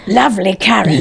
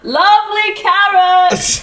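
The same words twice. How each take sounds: First: It is said in a growly Ada voice. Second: It is said in an ordinary, ungrowled voice.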